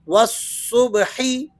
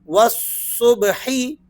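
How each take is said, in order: The two takes are said the same way.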